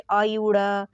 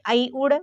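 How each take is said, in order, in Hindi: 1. हर अक्षर अलग है; आखिरी में स्वर है। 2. सब जुड़े हुए हैं; अंतिम व्यंजन में स्वर नहीं है। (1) "तो ये गलत है" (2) "ऐसे बोलिए जैसे इसमें स्वर ना हो"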